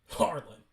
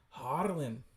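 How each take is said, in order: First: Said in the usual way. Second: Put-on Scottish-accented name call. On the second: Reader attempting a voice for the comic, Scottish accent. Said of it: "do a Scottish accent here".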